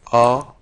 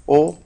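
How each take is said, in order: First: "O" with an open, aw-like vowel; a single firm open "O". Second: "O" with a closed, rounded vowel; a single firm closed "O". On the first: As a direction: say "O" open and loud, like aw. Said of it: "O abierta". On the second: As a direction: say "O" tight and rounded, loudly. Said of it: "Esta es vocal cerrada". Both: Shown as a demonstration.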